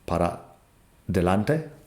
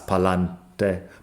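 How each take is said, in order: First: The phrase is said with every syllable. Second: The phrase is shortened into two syllables. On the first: It sounds more educated. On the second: It is the normal casual way to say it.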